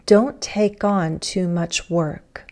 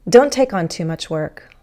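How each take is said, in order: First: The sentence is spoken slowly and clearly articulated. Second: The sentence is spoken quickly and run together. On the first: "In more careful speech"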